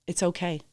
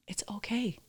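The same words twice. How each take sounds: First: Said in the usual way. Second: Whispered, gentle reassurance; soothing whisper. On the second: Retold or imitated. Wife comforting her guilty husband, a soft whisper. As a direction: whisper it to calm him down.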